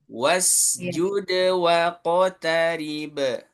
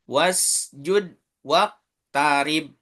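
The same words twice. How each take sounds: First: The consonants are released with an echoing bounce. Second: The consonants are held without an echoing bounce. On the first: The speaker calls it right. "Harus dipantul" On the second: The speaker calls it wrong. "Itu nggak mantul"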